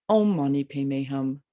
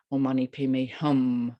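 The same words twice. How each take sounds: First: Opening "Om" emphasized, then "Mani Padme Hum" lighter; stress on first syllable. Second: "Hum" stressed at the close, earlier words light; closing "Hum" emphasized; stress on last syllable. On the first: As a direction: put the weight on "Om". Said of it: "You can start with the first one". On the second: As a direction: finish with weight on "Hum". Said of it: "depending on how one emphasizes different syllables". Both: Shown as a demonstration.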